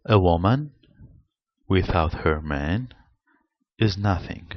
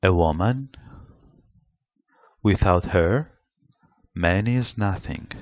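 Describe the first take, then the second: First: Phrased as a woman without her man, is nothing; pauses mark the meaning. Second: Phrased as a woman, without her, man is nothing; pause after her. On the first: Teacher reading a sentence to students, phrased with a pause after man. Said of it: "Look at this sentence". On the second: Teacher contrasts the second reading, pause after her. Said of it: "Punctuation mirrors for intelligibility". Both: Shown as a demonstration.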